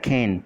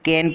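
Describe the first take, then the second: First: The first k sound is aspirated, with breath. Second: The first k sound is plain, without aspiration. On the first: This is how it is said by others. "इसको खैन पढ़ा जाता है" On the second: This is how we usually read it. "अपन कैन पढ़ते हैं"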